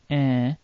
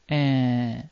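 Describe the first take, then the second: First: The nasal vowel is held somewhat longer. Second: The nasal vowel is held for a very long time. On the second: "or double long"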